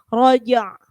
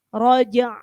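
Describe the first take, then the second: The two takes are said the same way.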